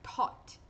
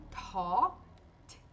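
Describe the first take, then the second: First: "Tot" whispered, aspirated t, final t stopped; whispered model. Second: "Tot" with a breathy aspirated first t. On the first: Teacher repeats "Tot" in a whisper. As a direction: breathe "Tot" out, no voice. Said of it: "Tzinho de parada". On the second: Teacher shows the aspirated t and a stopped final t. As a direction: puff air on the opening t of "Tot". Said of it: "o T de começo com mais ar". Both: Shown as a demonstration.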